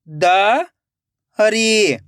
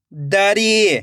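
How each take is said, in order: First: दरी split into द, long pause, री; rising द, then री alone; syllable by syllable. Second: दरी joined as one word with long ई; blended word. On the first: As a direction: sound out दरी very slowly in two parts. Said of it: "एक एक अक्षर का उच्चारण करना है". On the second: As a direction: read दरी whole, stretching the री. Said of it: "खींच के पढ़ना है". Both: Shown as a demonstration.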